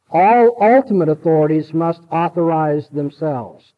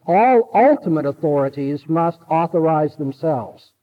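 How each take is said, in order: Both takes have the same delivery.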